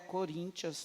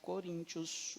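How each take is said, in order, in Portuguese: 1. Pronuncia-se como Corinthians, terminando em -ians. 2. Pronuncia-se como Coríntios, terminando em -ios. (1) "Não é Coríntios" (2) "É Coríntios"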